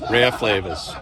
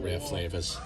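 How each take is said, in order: First: Louder Boston accent, dropped R in "Rare Flavors". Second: Softer, offhand Boston accent, dropped R in "Rare Flavors". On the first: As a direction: say "Rare Flavors" loudly in Boston speech, "Ray-uh Flay-vuhz". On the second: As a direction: repeat "Rare Flavors" quietly in Boston speech, "Ray Flay-vuhz". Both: Real, not acted. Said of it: "That's my Boston accent".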